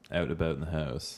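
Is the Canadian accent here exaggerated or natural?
natural. It is said in a natural, unexaggerated accent. This is how the speaker really talks.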